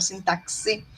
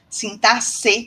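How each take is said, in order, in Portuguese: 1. O x soa como ks. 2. O x soa como s. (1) "não sintaxe" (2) "como se tivesse um C aí"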